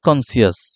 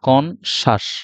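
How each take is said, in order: First: The middle is said as 'see-us'. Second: The middle is said as a 'sh' sound. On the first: The speaker calls it wrong. "আসলে এটা ভুল pronunciation" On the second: The speaker calls it right. "এটা হচ্ছে কনশাস"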